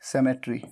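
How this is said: It is said in a British accent. "सेमेट्री British, UK pronunciation"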